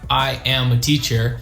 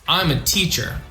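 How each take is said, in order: First: I am is said as two full words. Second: I am is joined into one contracted syllable. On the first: The speaker calls it wrong. "It's awkward" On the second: The speaker calls it right. "So I'm a teacher"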